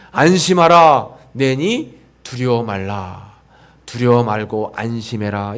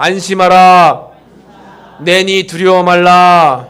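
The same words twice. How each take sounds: First: Reassuring Jesus. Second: Slow, much louder proclaiming; congregation call. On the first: Acted. Jesus reassures the frightened disciples, calm and slow. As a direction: settle their fear gently. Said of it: "예수님이 우리에게 말씀하시는". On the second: Shown as a demonstration. Pastor leads congregation in repeating the verse, loud and slow. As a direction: lead the crowd in a loud slow recitation. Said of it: "한번 따라해 보겠습니다".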